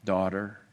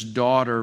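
First: Hushed and low, full of affection; Jesus naming her his daughter, tenderly. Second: Tender address, hushed and loving. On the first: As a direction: savour the word like a loving father. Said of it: "a tender and affectionate expression". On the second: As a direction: say it like a gentle father to his child. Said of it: "he speaks to her so tenderly". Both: Retold or imitated.

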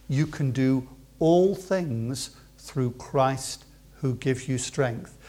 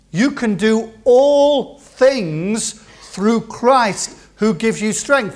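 First: Very slow and softer, stretching "all"; quiet encouragement. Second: Very slow and louder, leaning on "all"; proclaimed verse. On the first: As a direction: gently reassure every age group. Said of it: "repeated verse, quiet encouragement". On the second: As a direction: declare it over the congregation, word by word. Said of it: "repeated verse, proclaimed". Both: Shown as a demonstration.

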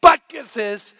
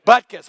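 First: Loud, defiant retort; loud comeback in the argument. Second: Loud, proud punchline name; crowd-pleasing shout of the star's name. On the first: Retold or imitated. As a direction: fire it back loudly. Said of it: "I said". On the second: Acted. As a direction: hit the name hard and loud.

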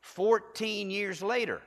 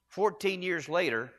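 First: Slow and drawn out, high; slow emphasis. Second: Fourteen stressed, said slowly. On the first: Preacher slowing down so the church hears closely. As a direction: lean on it slowly for the crowd. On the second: Preacher repeating the years so the church hears closely. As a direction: hit fourteen and let it sit. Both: Shown as a demonstration. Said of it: "I want you to hear this closely".

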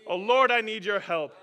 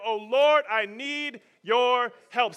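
First: Loud plea, falling at the end; pleading prayer. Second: Slow, loud plea to the Lord; pleading prayer. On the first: Preacher repeating the prayer for the crowd, pleading. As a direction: cry it out to God. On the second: Preacher modelling a prayer for the crowd, pleading. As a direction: cry out for help, dragging it. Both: Shown as a demonstration. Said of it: "Someone say that".

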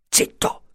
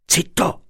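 First: Unvoiced whispered hush; whispering while hiding. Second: High sharp hush. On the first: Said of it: "fece ancora l'avvocato". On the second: Acted. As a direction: hush them suddenly. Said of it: "l'avvocato fece".

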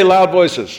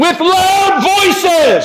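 First: Said in the usual way. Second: "With loud voices" drawn out slowly, high, LOUD stressed; stressed slow phrase. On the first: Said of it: "Everybody say". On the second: Shown as a demonstration.

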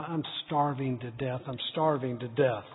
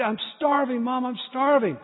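First: Lower, much softer grumble; boy stomping out of the kitchen, muttering lower and softer; under his breath. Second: Put-on higher, kid begging his mom for food; boy whining at his mom for supper, pitched up; whiny plea. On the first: Retold or imitated. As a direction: mutter it to yourself, sulking. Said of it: "under my breath". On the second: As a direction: whine it like a hungry boy.

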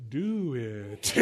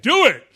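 First: Low, soft, weary drawn-out groan; reluctant body. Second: High, loud burst of eagerness; eager mind. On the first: Preacher voices his failing body to the congregation, low and weary. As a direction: drag it out low, as if worn out. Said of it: "And my body says". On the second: Preacher voices his eager mind to the congregation, high and loud. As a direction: punch it out high and loud, raring to go. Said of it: "my mind is like". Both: Acted.

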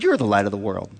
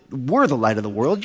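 First: "you're" picked out, then dropping low; stress on YOU'RE. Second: "we're" set apart and stressed, questioning rise at the end. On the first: Follower hands the title back to Jesus, stressing "you're", lower. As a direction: point the pronoun "you're" back at the listener. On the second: Follower corrects Jesus's pronoun, stressing "we're" as the wrong one. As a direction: lean on "we're" as the mistaken pronoun. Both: Acted. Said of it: "you got the pronoun wrong".

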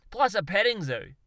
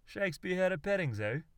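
First: Plus a petting zoo, belted higher and louder, plus hit hard; proud Aussie bloke landing his big finish; triumphant punchline. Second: Shakespeare had a petting zoo, higher, rising on had; disbelieving double-take; puzzled question. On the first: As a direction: crow out plus a petting zoo as the crowning idea. Darwin's punchline. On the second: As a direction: Cliff asks, baffled. Cliff asks in disbelief. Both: Acted.

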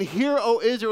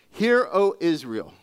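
First: Hear said high and louder, commanding; urgent call to attention; stress on Hear. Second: Slow, weighty proclamation; scripture read with gravity; solemn scripture reading. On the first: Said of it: "you need to pay attention". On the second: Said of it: "Let me just stop right there". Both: Shown as a demonstration.

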